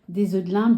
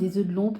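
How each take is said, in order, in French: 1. Le dernier mot a la voyelle nasale 'in'. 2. Le dernier mot a la voyelle nasale 'on'. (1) "Moi, j'ai toujours dit œufs de limpe" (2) "mais ça s'écrit œufs de lompe"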